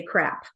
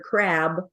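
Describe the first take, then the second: First: Crab said as crap, final b turned to p; devoiced final consonant. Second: Said in the usual way. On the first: Shown as a demonstration. Coach imitating a learner who devoices crab to crap. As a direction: end crab with a p so it sounds like crap. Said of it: "they might say crap". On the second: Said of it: "for the word crab".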